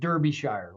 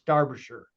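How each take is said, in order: First: It is pronounced the way Americans say it. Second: It is pronounced the way British speakers say it. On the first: The speaker calls it wrong. "which every American does" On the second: The speaker calls it right. "but it's Derbyshire"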